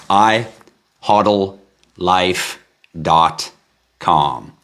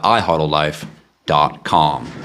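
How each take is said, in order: First: Each word set apart with long pauses; "I... hodl... life... dot... com", deliberately spaced. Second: Said in the usual way. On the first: Real, not acted. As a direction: spell out the address slowly, one word at a time. Repeats address word by word.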